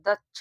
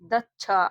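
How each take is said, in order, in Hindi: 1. अंतिम व्यंजन बिना स्वर के बोला जाता है। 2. अंतिम व्यंजन स्वर के साथ बोला जाता है। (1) "लास्ट वाला अक्षर पढ़ते तो इसे आधा पढ़ेंगे" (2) "ऐसे नहीं पढ़ रहे"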